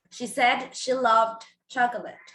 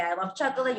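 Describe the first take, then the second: First: Slowed teaching model. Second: Said in the usual way. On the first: Shown as a demonstration. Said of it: "you will have to say". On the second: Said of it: "if I say".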